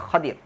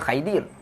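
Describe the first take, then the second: First: The first vowel is an open 'a' sound. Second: The first vowel is an 'ai' diphthong. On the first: This is the Arabic pronunciation used in the hadith. "sebutannya Khadir" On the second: This is how some other people read it. "Ada orang baca Khaidir"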